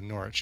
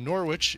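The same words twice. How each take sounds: First: The W sound is silent in the middle. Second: The W sound is pronounced in the middle.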